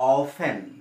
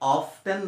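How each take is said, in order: First: No t sound is heard in the middle. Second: A t sound is heard in the middle. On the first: The speaker calls it right. "এইটো অফেন" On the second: The speaker calls it wrong. "অফ টেন নহয়"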